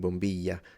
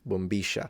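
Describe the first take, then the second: First: The double L sounds like 'y'. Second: The double L sounds like 'sh'. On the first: This is how it sounds in other regions. "so double L more like a y" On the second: This is how it sounds in Argentina. "Double L in Argentina, they pronounce it like a sh"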